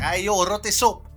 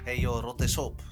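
First: It is said in a forceful, threatening way. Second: It is said in a mild, harmless way. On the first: The words immediately affect the listener. "Gelijk doet dat wat met je" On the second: The words have no effect on the listener. "Dat doet niks"

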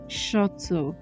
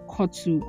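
First: The word begins with a sh sound. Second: The word begins with a hard k sound. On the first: The speaker calls it right. "It is not ch. Why did Nana put it as sh?" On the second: The speaker calls it wrong. "it's not pronounced kotu"

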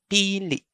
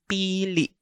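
No difference in how they are said.

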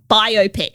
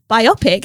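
First: The word is said in a broad Australian way. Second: The word is said as bio plus pic. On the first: The speaker calls it wrong. "I hate it in the Australian accent because it's like biopic. It's really bogan" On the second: The speaker calls it right. "it's bio and pic together"

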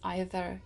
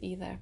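First: It is pronounced the non-American way. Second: It is pronounced the American way. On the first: "in the US you don't pronounce it as either" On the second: "you pronounce it as either"

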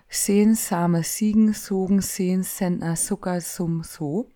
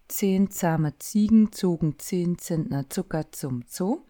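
First: Each Z is pronounced as a plain sharp s. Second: Each Z is pronounced as a full ts sound. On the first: This is the Berlin dialect pronunciation. "da wird im Berlinerischen häufig das T weggelassen" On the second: This is the standard German pronunciation. "mache den einmal auf Hochdeutsch"

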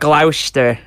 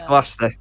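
First: The name is said in a spelled-out way. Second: The name is said the local way. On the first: This is how outsiders would try to say it. The speaker calls it wrong. "the Americans listening. Go and try and pronounce that" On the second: This is how the town is really called. The speaker calls it right. "It's Gloucester"

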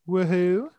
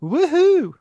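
First: It is said flatly, with little excitement. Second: It is said with clear excitement.

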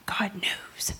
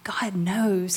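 First: It sounds stern and threatening. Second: It sounds warm and reassuring. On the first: You will be caught and judged. The speaker calls it wrong. "I don't say that like" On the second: You are understood and not alone. The speaker calls it right. "I'm saying"

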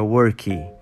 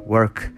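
First: An extra vowel follows the final consonant. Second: It ends cleanly on the final consonant. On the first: The speaker calls it wrong. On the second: The speaker calls it right.

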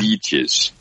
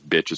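First: The first vowel is a long ee sound. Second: The first vowel is a short i sound.

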